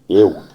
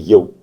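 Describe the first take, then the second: First: The vowel is a Cornish 'ew' sound. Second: The vowel is a standard English 'oo' sound. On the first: "it'd be sort of Y E W almost" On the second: "It's not actually Y double O. That'd be"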